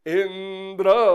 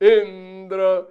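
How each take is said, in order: First: The high pitch falls on the last syllable. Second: The high pitch falls on the first syllable. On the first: Let me be killed by Indra. "अंत्योदात्त लगा दिया" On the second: Indra is to be killed by us. "आद्युदात्त"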